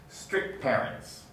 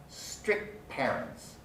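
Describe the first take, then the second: Both takes have the same delivery.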